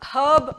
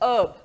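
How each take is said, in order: First: The word starts with an audible 'h' sound. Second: The word starts with a vowel, no 'h'. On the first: The speaker calls it wrong. "ആ ഹേർബ് എന്ന് പറയേണ്ട ആവശ്യമില്ല" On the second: The speaker calls it right. "ഹെച്ച് sound silent ആണ്"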